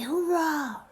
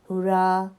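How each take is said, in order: First: It is said with excited, joyful energy. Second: It is said flatly, without emotion.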